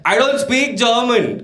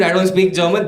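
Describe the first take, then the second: First: High, slow mock yell; drawn-out, raised-pitch retort; yelling back. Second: Mild, higher-pitched mock yell; half-hearted re-enacted shout; retold scream. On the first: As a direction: yell it slowly as if at a stranger. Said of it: "So then I yelled back". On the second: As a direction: repeat your yelled line, toned down. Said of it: "so I screamed".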